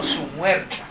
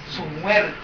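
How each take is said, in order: First: "Su" marked, "muerta" rising; stress on su. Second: "Su muerta" said low and soft, weight on "muerta"; stress on muerta. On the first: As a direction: point out the word "Su" in "Su muerta". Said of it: "No la muerta". (énfasis en "su") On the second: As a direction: savour the words "su muerta". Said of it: "Qué expresión". (énfasis en "su muerta") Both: Shown as a demonstration.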